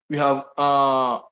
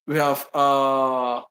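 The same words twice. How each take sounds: The two takes are said the same way.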